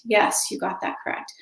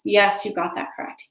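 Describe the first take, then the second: First: Repeated softly, nearly whispered; a hushed, mostly voiceless repeat; quiet echo. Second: Said in the usual way. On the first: Retold or imitated. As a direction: breathe it out as a soft echo. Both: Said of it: "Until they're saying".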